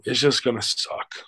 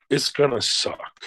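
First: Said in the usual way. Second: Slow, higher, weight on "gonna suck"; emphatic repeat. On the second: Real, not acted. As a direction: stretch out "gonna suck" to drive it home.

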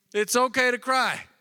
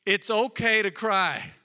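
First: Higher, slow, insistent repeat; emphatic repeat. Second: Said in the usual way. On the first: Shown as a demonstration. Pastor urging the congregation, higher and slower. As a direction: press the point home, rising and slow. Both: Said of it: "repeated key point".

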